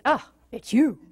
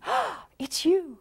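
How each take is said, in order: First: Bored greeting. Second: Slow, high, delighted greeting; early delight. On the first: Years in, greeting a partner with dull disappointment. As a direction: make it sound like a letdown. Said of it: "And eventually it's". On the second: Early relationship, greeting a partner with delight. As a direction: savour every word with joy. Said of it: "So in the beginning". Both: Shown as a demonstration.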